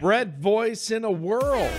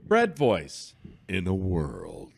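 First: It is said in an ordinary speaking voice. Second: It is said in a dramatic movie-trailer voice. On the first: "You have to say it in the Brett voice" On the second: "you're doing the in a world. The trailer thing"

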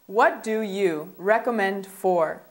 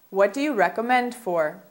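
First: The sentence is spoken at a slower pace. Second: The sentence is spoken at a faster pace.

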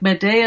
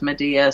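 First: The name is pronounced in a Greek-like way. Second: The name is pronounced the common English way. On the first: "Medea is more like the Greek pronunciation" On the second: "but everybody says Medea"

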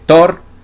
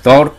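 First: The name starts with a plain t sound. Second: The name starts with a th sound. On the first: The speaker calls it wrong. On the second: The speaker calls it right.

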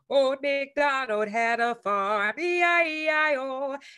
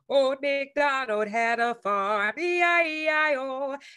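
First: The voice sounds clear and open. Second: The same.

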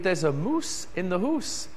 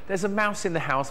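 First: It is said in a Scottish accent. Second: It is said in an English accent. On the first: "That's just my Scottish accent" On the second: "for you south of the border"

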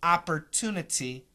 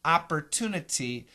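First: The second T is a clear, crisp T. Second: The same.

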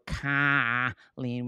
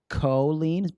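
First: The name is said with a Rochester accent. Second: The first syllable sounds like a plain 'coe'. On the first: "which is Rochester's accent" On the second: "to be COE, would be the phonetically"

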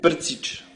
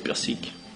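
First: The surname is said with a 't' sound. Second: The surname is said with an 's' sound. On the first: This is the official form of the name. "c'est la version officielle? Voilà, c'est officiel, c'est mon vrai nom" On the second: This is a simplified form that is easier for others. "pour faciliter la tâche"

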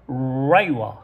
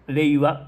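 First: It is said with an American English R sound. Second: It is said with a Japanese R sound.

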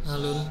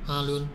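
Both takes have the same delivery.

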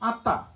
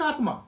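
First: The middle is pronounced as a double t. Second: The middle is pronounced with t and m. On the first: This follows the old Pali pronunciation. "but pronounce what? Atta, just as Pali used to pronounce it" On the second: This follows the Sanskrit spelling. "We'll write Atma"

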